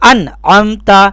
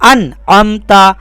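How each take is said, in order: Both takes have the same delivery.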